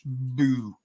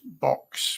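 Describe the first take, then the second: First: The name ends with a plain 'oo' vowel. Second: The name ends with a 'ks' consonant sound. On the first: The speaker calls it right. "but it's not. It's boo" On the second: The speaker calls it wrong. "I just took B O U X as box"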